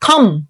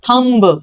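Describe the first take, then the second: First: The word ends with an m sound. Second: The word ends with a b sound. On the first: The speaker calls it right. "हम इसको बोलेंगे थम" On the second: The speaker calls it wrong. "Not थंब"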